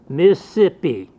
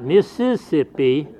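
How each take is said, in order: First: The word is said with three syllables. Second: The word is said with four syllables. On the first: This is how people from the region say it. "They use 3. They drop one" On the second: This is the full form that locals do not use.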